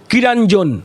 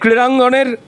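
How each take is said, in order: First: It starts with plain 'ki' and has a 'nj'. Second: It starts with 'kri' and has a clear 'ng'. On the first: "Arup বিশ্বাসের মতো উচ্চারণ করতে হবে, অশিক্ষিতটার মতো" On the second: "ভুল উচ্চারণ করে ফেললাম"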